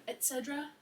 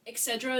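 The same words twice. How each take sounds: First: "et cetera" as et-SED-ra, with a T; corrected pronunciation. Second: "et cetera" as ek-SED-ra; common mispronunciation. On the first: Contrasting two forms for a friend, "et cetera" starting with "et". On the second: Contrasting two forms for a friend, "et cetera" as ek-SED-ra. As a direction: say "et cetera" with a K sound in the first syllable. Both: Shown as a demonstration. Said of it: "et cetera instead of et cetera".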